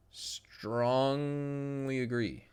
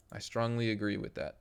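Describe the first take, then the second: First: Very slow, stretched "Strongly"; drawn-out agreement. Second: Said in the usual way. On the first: Real, not acted. Streamer answering a viewer's question, drawn-out emphatic agreement. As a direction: draw out "Strongly" in one long held sound.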